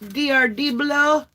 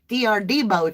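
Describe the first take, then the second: First: The name is said with an L sound. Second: The name is said without an L sound. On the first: The speaker calls it wrong. "I always say it wrong" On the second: The speaker calls it right. "very clearly D R Debo"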